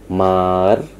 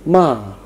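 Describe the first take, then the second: First: The pitch dips down, then rises again. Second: The pitch falls sharply from high to low. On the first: "nada yang melengkung dari atas turun ke bawah kemudian naik lagi" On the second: "nada yang tinggi, kemudian turun ke rendah dan diucapkan dengan kuat dan pendek"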